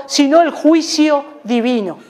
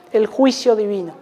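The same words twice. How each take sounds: First: Said in the usual way. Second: Soft echo. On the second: Real, not acted. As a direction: repeat "el juicio divino" softer, dropping away. Eco de la frase. (eco suave de "el juicio divino")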